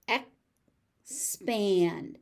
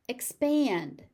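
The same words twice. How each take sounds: First: "Expand" as ek, pause, spand; syllable by syllable. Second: Said in the usual way. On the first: Shown as a demonstration. Teacher sounding out "Expand" for learners, syllable by syllable. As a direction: split "Expand" before the S.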